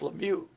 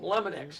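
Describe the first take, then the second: First: The name ends with a vowel sound. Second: The name ends with an x sound. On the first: The speaker calls it right. "It's it's Lemieux" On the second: The speaker calls it wrong. "you call him Lemonex"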